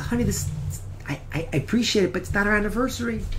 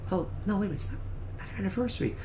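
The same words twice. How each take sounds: First: Fast, stumbling, tactful correction; flustered politeness. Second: Fast whisper, checking with himself; relieved whisper. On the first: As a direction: gently set her straight. Husband gently corrects his wife. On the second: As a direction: rush it under your breath. Husband reassures himself privately. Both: Retold or imitated.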